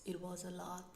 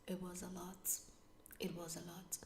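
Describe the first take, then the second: First: Said in the usual way. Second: "It was a lot" whispered, drained and unvoiced. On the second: Real, not acted. To viewers, recalling how overwhelming it was, a drained whisper. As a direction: let "It was a lot" fade to a tired whisper.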